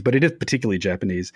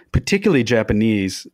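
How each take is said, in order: First: "is" stressed, quick corrective emphasis. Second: Said in the usual way. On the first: Shown as a demonstration. Guest correcting himself to the host, stress on "is". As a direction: lean on "is" to insist. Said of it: "I don't say it's uniquely Japanese".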